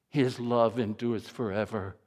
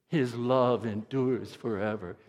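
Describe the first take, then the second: Both takes have the same delivery.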